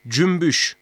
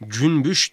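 First: "cümbüş" with m before the b; assimilated M sound. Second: "Cünbüş" with n before the b; wrong N sound. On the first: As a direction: say "cümbüş" with m, not n. ("cümbüş", m sesiyle) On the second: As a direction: say "Cünbüş" with a clear n. ("Cünbüş", n sesiyle) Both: Shown as a demonstration. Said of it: "Cünbüş değil, cümbüş".

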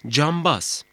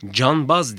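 First: "cambaz" with m before the b; assimilated M sound. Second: "Canbaz" with a clear n before the b; wrong N sound. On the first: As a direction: close the lips early for m in "cambaz". ("cambaz", b'den önce m sesiyle) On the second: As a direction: say "Canbaz" with n, not m. ("Canbaz", b'den önce n sesiyle) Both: Shown as a demonstration. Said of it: "Canbaz değil, cambaz".

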